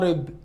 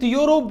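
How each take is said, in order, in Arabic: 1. تبدأ الكلمة بصوت حركة 'uh'. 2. تبدأ الكلمة بصوت 'yoo'. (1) "انا قلت يوروب ولا ارب؟" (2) "قلت يوروب"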